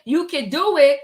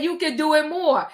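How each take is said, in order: First: Plain quote, no "more"; stress on do. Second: "more" added and leaned on; weight the final word "more"; stress on more. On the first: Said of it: "She didn't say". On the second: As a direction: quote that hinges on "more". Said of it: "She said". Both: Retold or imitated.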